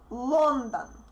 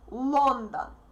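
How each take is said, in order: The two takes are said the same way.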